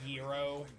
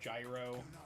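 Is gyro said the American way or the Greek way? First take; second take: Greek; American. First: It is said in a Greek-style pronunciation. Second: It is said in the usual American pronunciation. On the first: "people who say like gyro" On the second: "that's how we as Americans say it"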